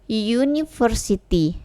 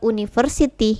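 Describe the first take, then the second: First: The word begins with a y sound. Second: The word begins with a plain vowel sound. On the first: The speaker calls it right. "Ini cara bacanya U, university ya" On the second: The speaker calls it wrong. "bukan university ya"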